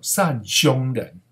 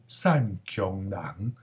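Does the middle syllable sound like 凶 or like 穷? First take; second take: 凶; 穷. First: The middle syllable sounds like 凶. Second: The middle syllable sounds like 穷. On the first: The speaker calls it wrong. "所以有的人就读作善凶人哦，那实在是吼、哦、乱七八糟" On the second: The speaker calls it right. "因为这个字不是这样读，是善穷人"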